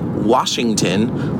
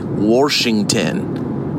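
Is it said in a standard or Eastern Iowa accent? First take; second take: standard; Eastern Iowa. First: It is said with a standard pronunciation. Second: It is said the Eastern Iowa way.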